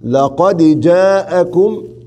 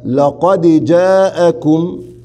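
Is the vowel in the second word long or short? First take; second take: long; long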